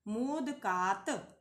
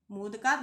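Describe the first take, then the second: First: मोदकात stretched out very slowly, syllable by syllable; slow recitation. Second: Said in the usual way. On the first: Shown as a demonstration. Teacher reciting a declension form for students, very slow. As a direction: chant the word form slowly.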